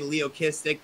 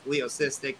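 First: The middle consonant is a hard k sound. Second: The middle consonant is a soft s sound. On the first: "Everyone says I say it wrong. I always say Leokistic" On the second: "People say it's Leocystic"

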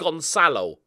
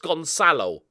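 First: The middle consonant is a soft s sound. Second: The same.

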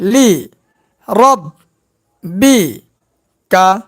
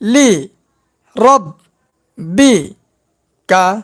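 The two takes are said the same way.

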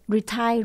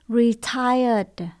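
First: The word ends without a final d sound. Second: The word ends with a final d sound. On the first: The speaker calls it wrong. "retire là không đúng nhé" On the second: The speaker calls it right. "Retired là nghỉ hưu"

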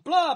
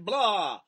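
First: It is said with more energy. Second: It is said with little energy.

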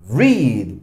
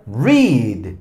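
First: The vowel is long, rhyming with 'reed'. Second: The same.

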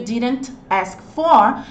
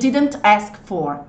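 First: The words are said separately, not flowing together. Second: The words run together quickly with sounds cut. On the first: The speaker calls it wrong. "só que você percebe que ele não fica tão fluido" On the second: The speaker calls it right. "a ideia é acelerar a entrega da comunicação"

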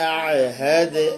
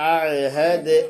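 No difference in how they are said.

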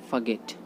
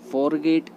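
First: The first syllable has a reduced 'fuh' vowel. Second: The first syllable has a full 'or' vowel. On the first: The speaker calls it right. "Right pronunciation उसका होता है फगेट" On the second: The speaker calls it wrong. "फॉरगेट गलत होता है"

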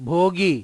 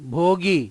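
First: The two syllables are blended into one word. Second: The two syllables are blended into one word.

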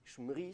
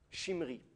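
First: Three consonants run together with no vowel. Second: An i vowel separates the first two consonants. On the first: The speaker calls it wrong. "ça ne marche pas" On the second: The speaker calls it right. "on va mettre un chirek"

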